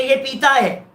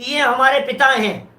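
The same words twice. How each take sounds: First: पीता with a long ee, "pee-taa"; पीता as in drinks, long first syllable. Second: पिता with a short i, "pi-taa"; पिता as in father, quick first syllable. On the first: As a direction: stretch the first vowel of पीता. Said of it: "पीता है माने liquor है". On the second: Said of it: "पिता है माने father है". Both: Shown as a demonstration.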